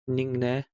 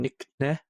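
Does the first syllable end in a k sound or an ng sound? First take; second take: ng sound; k sound. First: The first syllable ends in ng, flowing smoothly. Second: The first syllable ends in k, with a gap. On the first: The speaker calls it right. "it's ningne... it flows a bit better" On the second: The speaker calls it wrong. "rather than nickne, and have that gap"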